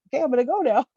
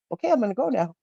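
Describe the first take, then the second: First: Little dragon voice, higher and louder; cute little dragon, higher. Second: Lightly voiced little dragon, a bit higher; a hint of a shy dragon taking leave; cute little dragon. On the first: Acted. The cute little fiery dragon says goodbye again, higher and louder. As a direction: play the tiny dragon chirping its goodbye, higher. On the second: The cute little fiery dragon says goodbye, lightly voiced. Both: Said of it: "climbed out and was like".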